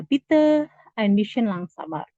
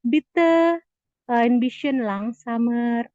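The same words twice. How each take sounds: First: Model phrase again. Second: Slow classroom demo; slow model phrase. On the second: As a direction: stretch it out for the class. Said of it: "kita bisa ngomong lagi". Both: Shown as a demonstration.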